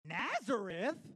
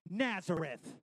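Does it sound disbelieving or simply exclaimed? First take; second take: disbelieving; exclaimed. First: It sounds like an incredulous, disbelieving question. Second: It is simply exclaimed, with no questioning.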